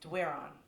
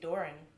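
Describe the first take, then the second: First: The name begins with a 'dw' sound, like 'where'. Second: The name begins with a plain 'd' sound. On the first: This is how the family says it back home. "the way we grew up saying it in Moncton" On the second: This is how a namesake in Kentucky says it. "they just say Doran"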